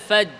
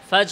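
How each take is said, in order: No difference in how they are said.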